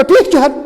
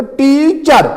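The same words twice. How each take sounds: First: teacher run together without a break after टी. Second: teacher split into टी and चर, first syllable stretched; pause between syllables. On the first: Teacher showing what not to do, teacher with syllables run together. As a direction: say teacher as one quick unbroken word. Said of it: "मैं ऐसे नहीं कहूँगा". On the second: Teacher showing the class syllables, teacher said with a break after टी. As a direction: say teacher in two parts, holding टी before चर. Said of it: "मुझे पहले रुकना है, थोड़ा पास देना है". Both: Shown as a demonstration.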